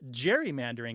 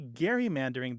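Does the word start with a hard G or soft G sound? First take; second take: soft; hard. First: It begins with a soft G sound. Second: It begins with a hard G sound. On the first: "as I maintain the word should be pronounced, the G being soft" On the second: "everyone else is saying gerrymander at the time"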